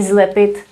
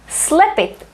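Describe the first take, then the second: First: The word begins with a voiced z sound. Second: The word begins with a voiceless s sound. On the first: The speaker calls it wrong. "We don't say zlepit" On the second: The speaker calls it right. "Not here for some reason"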